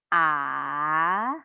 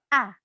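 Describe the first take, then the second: First: The pitch dips down then rises, drawn out. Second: The pitch falls sharply and firmly. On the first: "seperti naik gunung ... diperpanjang" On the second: "seperti orang marah atau tegas"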